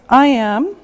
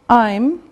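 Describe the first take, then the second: First: It is said as two separate full words. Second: It is said as one contracted syllable.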